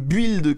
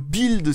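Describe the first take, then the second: First: The word is pronounced with French-style sounds. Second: The word is pronounced with English-style sounds.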